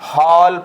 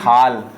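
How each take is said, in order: First: The vowel is a rounded 'aw' sound. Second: The vowel is an open unrounded 'aa' sound. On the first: The speaker calls it right. "ये सही है" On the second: The speaker calls it wrong. "ये गलत है"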